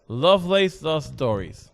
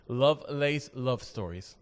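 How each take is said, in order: First: It is said with a put-on TV English accent. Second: It is said without the TV English accent. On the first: The speaker calls it wrong. "my cable T V English kicked in" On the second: The speaker calls it right. "Let me say that right"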